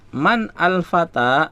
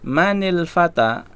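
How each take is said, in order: First: The first word stays separate without a linking vowel. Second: The first word links on with an added i-vowel. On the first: "Kan asalnya man ya" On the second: "Maka sukun yang pertama itu dibaca kasrah, manil"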